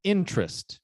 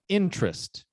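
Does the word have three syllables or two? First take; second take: two; two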